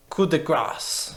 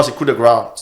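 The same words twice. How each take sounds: First: Coup de grâce, slow, "grass"; slow English coup de grâce; English accent. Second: Coup de grâce, grâce without the final E; French pronunciation. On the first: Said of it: "Non, c'est coup de grâce". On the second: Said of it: "prononces pas le C E". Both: Shown as a demonstration.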